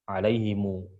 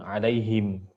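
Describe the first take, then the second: First: The word ends with an added u vowel. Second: The word ends on a closed m sound. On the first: "dengan silah" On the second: "dengan sukun"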